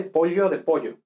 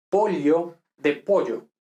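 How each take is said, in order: First: "Pollo" repeated with the palatal ll sound. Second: "pollo" with a clear palatal ll, slow. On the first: Teacher repeats pollo to show the sound. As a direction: say "Pollo" with the ll like gli. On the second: Teacher models old villager's pollo for class. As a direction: draw out the ll in "pollo" slowly. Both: Shown as a demonstration. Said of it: "distingue, por ejemplo".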